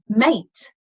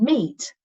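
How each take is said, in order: First: The vowel is an ay sound. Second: The vowel is a long ee sound. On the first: This is how the word was said in Shakespeare's time. "he would have said a mate for the E A spelling" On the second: This is how the word is said today. "I say meet and meet"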